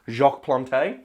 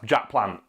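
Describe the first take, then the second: First: The name is said with a French pronunciation. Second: The name is said with an English pronunciation. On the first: The speaker calls it right. "which sounds way nicer" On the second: The speaker calls it wrong. "in English that's Jack Plant, and that sounds boring"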